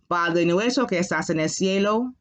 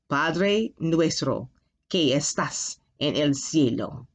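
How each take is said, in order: First: It is said at a normal pace. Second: It is said a little more slowly.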